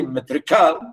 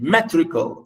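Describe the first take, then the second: First: "metrical" wrongly stressed on the last syllable, "cal"; misplaced stress on ending. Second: "metrical" stressed on "me", as normally said; stress on first syllable. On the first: Teacher showing what she didn't say, final syllable stressed. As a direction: throw the weight onto the end of "metrical". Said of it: "I didn't say metrical". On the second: Teacher contrasting word stress, first syllable stressed. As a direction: hit the start of "metrical", let the rest fall. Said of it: "stress on m". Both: Shown as a demonstration.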